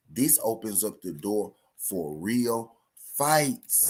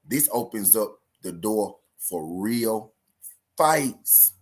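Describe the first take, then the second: First: Said again slow. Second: Slow, drawn out, punching fights; emphatic. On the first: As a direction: lay it out word by word. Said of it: "I'ma say it again slow". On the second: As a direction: spell it out for the fans. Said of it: "I'ma say it again". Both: Shown as a demonstration.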